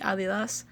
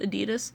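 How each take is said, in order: First: It is pronounced with German sounds. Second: It is pronounced with American English sounds. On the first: "if you were to go to Germany or most of Europe, it would be" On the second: "That's how Americans pronounce it"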